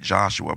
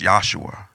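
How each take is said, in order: First: The name begins with a J sound. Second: The name begins with a Y sound. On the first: The speaker calls it wrong. "we say Joshua, but that's not how you pronounce it" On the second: The speaker calls it right. "It's Yahshua. Usually when you see the J is silent"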